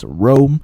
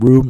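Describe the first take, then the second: First: The vowel is a long 'oh' sound. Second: The vowel is a long 'oo' sound. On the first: The speaker calls it right. "that's how you pronounce it by the way, it's Rome" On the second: The speaker calls it wrong. "it's not Room"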